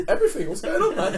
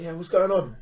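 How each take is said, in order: First: Squeaky, laughing self-imitation; high breaking voice. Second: Mildly confrontational greeting; aggressively friendly. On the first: Driver answering the aggressive stranger, voice high and breaking. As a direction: replay your own nervous high squeak. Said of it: "it's a breaky voice, like, high". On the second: Retold or imitated. Robber leaning at the car window saying nice things, mildly aggressive. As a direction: imitate a stranger's pushy pleasantry. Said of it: "he's talking aggressively, but saying nice things".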